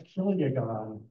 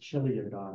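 First: The word begins with a hard k sound. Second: The word begins with a ch sound. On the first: The speaker calls it right. "So a kiliagon" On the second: The speaker calls it wrong. "I've sometimes heard people pronounce this chiliagon, which is funny, but it's not right"

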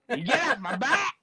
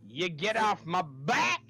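First: It is said fast. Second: It is said slowly.

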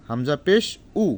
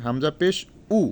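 No difference in how they are said.

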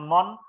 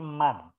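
First: The vowel is a rounded 'o' sound. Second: The vowel is an open 'a' sound. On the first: The speaker calls it wrong. "bukan mon" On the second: The speaker calls it right. "tapi man"

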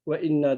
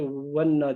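First: A glottal catch separates 've' from 'inna'. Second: 'Ve' runs straight into 'inna' as one word. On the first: The speaker calls it right. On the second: The speaker calls it wrong.

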